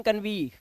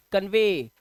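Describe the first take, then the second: First: कन्वी said "kan-vee", ee in place of ay; wrong ee ending. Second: कन्वे said "kan-vay", long ay ending; correct ay ending. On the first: Teacher showing the misreading कन्वी, wrong ee ending. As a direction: end कन्वी on a mistaken long "vee". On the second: Teacher correcting the misreading to कन्वे, long ay ending. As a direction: finish कन्वे on a firm "vay". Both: Shown as a demonstration. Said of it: "कन्वी नहीं पढ़ेंगे".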